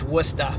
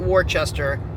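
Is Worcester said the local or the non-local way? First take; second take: local; non-local. First: It is said the local New England way. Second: It is said the way outsiders say it. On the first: The speaker calls it right. "It's Worcester" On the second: The speaker calls it wrong. "not Worcester"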